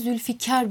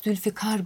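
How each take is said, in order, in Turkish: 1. k sesi önde, yumuşatılarak çıkarılır. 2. k sesi çok arkada, Arapçadaki kaf gibi çıkarılır. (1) "Bunun yerine Zülfikar biçiminde çok fazla telaffuz edildiğini görüyoruz" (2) "Bunun kökünde kaf sesi olduğu için muhakkak Zülfikar biçiminde"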